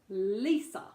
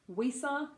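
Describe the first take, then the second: First: The name starts with a clear L sound. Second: The name starts with a W-like sound. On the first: The speaker calls it right. "make sure your tongue comes up ... Lisa, much more spot on" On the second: The speaker calls it wrong. "doesn't become Wisa. Wisa, not so not so cool"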